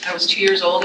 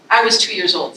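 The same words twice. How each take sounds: First: Recalled line, plainer and explanatory; re-reading the line to show its tone; explaining recap. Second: The poem's first take, full of feeling; heartfelt poem line. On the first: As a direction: quote it back to make a point. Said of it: "is her voice nice in that poem?". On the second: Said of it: "this is in Vivi's voice speaking to that photograph". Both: Shown as a demonstration.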